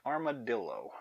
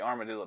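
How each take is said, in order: First: The word is said slowly and clearly. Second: The word is said very fast.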